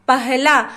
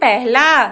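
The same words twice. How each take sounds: First: The first syllable is said as 'pa'. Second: The first syllable is said as 'pe'. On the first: This follows the written spelling. "प ह ल पे आ की मात्रा ला" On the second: This is the everyday spoken form. "इसको अक्सर हम बोलते हैं पहला"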